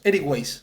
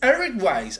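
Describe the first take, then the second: First: The name is pronounced the Spanish way. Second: The name is pronounced the English way. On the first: "Para nosotros" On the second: "En inglés"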